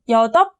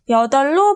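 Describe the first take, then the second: First: The cluster is pronounced as a p sound. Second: The cluster is pronounced as an l sound. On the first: The speaker calls it wrong. "여덟 아니죠?" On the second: The speaker calls it right. "리을로 발음한다는"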